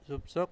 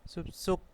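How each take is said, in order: First: The second consonant is plain, as spelled. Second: The second consonant is tense, doubled.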